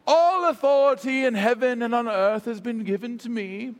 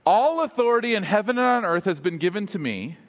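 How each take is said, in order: First: Formal, theatrical British Shakespearean recitation; grand old British scripture voice; Shakespearean lilt. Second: Said in the usual way. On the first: Acted. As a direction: intone it like a stage Shakespearean. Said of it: "kind of Shakespearean lilt". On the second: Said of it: "a right translation would be".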